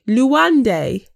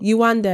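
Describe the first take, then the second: First: The name starts with an L sound. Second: The name starts with a Y sound. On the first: This is how someone else mispronounced the name. The speaker calls it wrong. "Call her Luande" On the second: This is the name as it should be said. The speaker calls it right. "they know her name. It's not that difficult"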